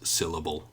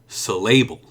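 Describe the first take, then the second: First: The stress is on the first syllable. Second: The stress is on the middle syllable. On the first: The speaker calls it right. "the stress is on the first um, syllable of the word syllable" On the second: The speaker calls it wrong. "If I put the stress in the middle, it might be"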